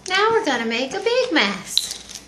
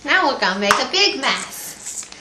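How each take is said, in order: First: High, slow singsong with stress on big; slower baby talk. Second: Put-on bright, loud singsong to baby; cheerful baby talk. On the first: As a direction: stretch it out for the baby. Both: Shown as a demonstration.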